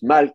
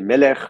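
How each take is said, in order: First: The word has one syllable, ending in -lk. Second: The word has two syllables, ending in -ech. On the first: This is how the word may have been said in ancient times. "maybe it was pronounced malk" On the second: This is how the word is said today. "like now in modern Hebrew, you would say melech"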